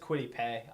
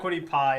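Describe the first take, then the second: First: The surname rhymes with 'day'. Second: The surname rhymes with 'sky'. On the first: The speaker calls it right. "Apparently, it's Quiddy Pay" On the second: The speaker calls it wrong. "it's not Quiddy Pie apparently because people freaked when I said that"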